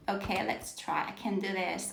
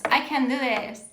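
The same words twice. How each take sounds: First: Barely audible self-encouragement while fiddling with the screen; quiet self-talk. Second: Said in the usual way. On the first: Real, not acted. Teacher struggling with the screen, murmuring softly to herself. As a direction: mutter it softly to yourself.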